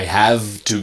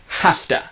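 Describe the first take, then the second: First: The V is voiced and the words stay separate. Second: An F sound joins the words into hafta. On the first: The speaker calls it wrong. "using the V, but really it's an F" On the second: The speaker calls it right. "really it's an F. Hafta"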